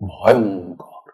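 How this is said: The pitch dips, then rises, sounding fearsome. "ভ থেকে অংতে নেমে আবার করে উঠে আসছে গলা"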